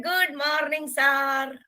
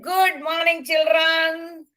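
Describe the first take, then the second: First: Put-on children's chorus. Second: A touch higher, brisk teacher greeting; teacher's greeting. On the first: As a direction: answer the teacher like a class in unison. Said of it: "All the children stood up and said". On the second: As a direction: greet the class like a cheerful teacher. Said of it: "Sir came in and he said". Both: A narrator's reading.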